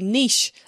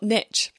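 First: It is pronounced the British way. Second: It is pronounced the American way. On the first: "Canadians, like the UK, say niche" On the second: "and not niche"

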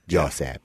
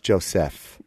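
First: The middle consonant sounds like a p. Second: The middle consonant sounds like an f. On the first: The speaker calls it wrong. "Then she'll say my name wrong at the end" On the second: The speaker calls it right. "Mom, it's Joseph"

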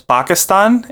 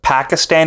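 First: The word is said closer to the native way. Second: The word is said the anglicized English way. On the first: The speaker calls it right. "it's Pakistan" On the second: The speaker calls it wrong. "It's not Pakistan"

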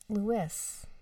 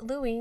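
First: The name ends with an audible s sound. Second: The name ends in an ee sound, no s. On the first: The speaker calls it wrong. "not Louis" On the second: The speaker calls it right. "you pronounce it Louis"

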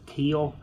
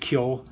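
First: The name is said the English way. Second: The name is said the Irish way. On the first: The speaker calls it wrong. "a lot of other names English people mispronounce" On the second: The speaker calls it right. "It's Kyo"

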